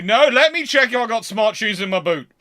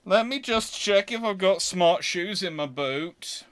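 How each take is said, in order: First: Insistent. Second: Said in the usual way. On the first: Retold or imitated. Insists on checking his shoes.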